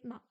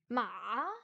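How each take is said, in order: First: It is said with no tone at all. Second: The pitch dips very low, then rises. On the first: "le ton neutre, c'est le ton où il n'y a pas de ton" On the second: "Le troisième ton, c'est ma"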